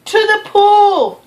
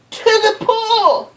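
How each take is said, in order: First: Loud, high, slow yell; fireman's yell. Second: Put-on boy's yell. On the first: Acted. Fireman shouting where to take the fish, loud and high. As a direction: bellow the order. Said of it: "yelled the fireman". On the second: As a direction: shout it back, a little lighter. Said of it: "I yelled".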